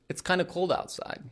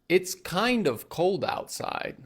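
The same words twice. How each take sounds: First: 'Kind of' is blended into one word, 'kinda'. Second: 'Kind of' is said fully as two words. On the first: "kind of turns into kinda" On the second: "So instead of saying"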